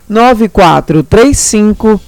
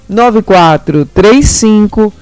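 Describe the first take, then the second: No difference in how they are said.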